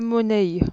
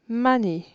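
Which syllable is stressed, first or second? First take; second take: second; first. First: The stress is on the second syllable. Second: The stress is on the first syllable. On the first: The speaker calls it wrong. "et non pas" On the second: The speaker calls it right. "C'est la première syllabe"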